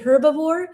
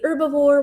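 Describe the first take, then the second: First: The h at the start is pronounced. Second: The h at the start is silent. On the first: "you might hear British say herbivore" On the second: "Americans say herbivore. We don't really pronounce the H"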